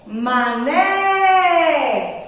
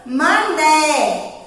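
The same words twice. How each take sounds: First: "Mané" with a long held NÉ; drawn-out stressed syllable. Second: Said in the usual way. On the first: Shown as a demonstration. Teacher showing children the strong syllable, drawn out. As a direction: stretch the end of "Mané": manééé. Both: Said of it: "Foi o né".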